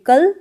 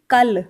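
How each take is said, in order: First: Said in the usual way. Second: "कल" said as Punjabi "kall", l pressed; Punjabi pronunciation. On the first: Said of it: "Hindi में बोलते हैं". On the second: Shown as a demonstration. Teacher contrasting Hindi with Punjabi for learners, "कल" pressed as "kall". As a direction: say "कल" with a firm, doubled final l. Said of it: "थोड़ा ज़ोर से बोलेंगे".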